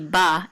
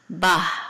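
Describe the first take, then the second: First: It ends on the vowel with no h. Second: It ends with an audible breathy h sound. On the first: This is how it is said nowadays. "It wouldn't just be ba" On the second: This is how it was said in ancient biblical Hebrew. "let that that h sound um, be more audible"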